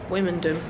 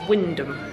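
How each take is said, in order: First: The name is said with three syllables. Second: The name is said with two syllables. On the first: The name is read as it is spelt. The speaker calls it wrong. "because that's how it's spelt" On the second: The name is said the way locals say it. The speaker calls it right. "it's actually Wyndham, because apparently the M and the O are silent"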